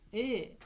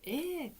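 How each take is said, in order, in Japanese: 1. 沈んだ平坦な言い方です。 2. 明るく陽気な言い方です。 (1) "じゃなくて" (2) "ちょっと明るくね"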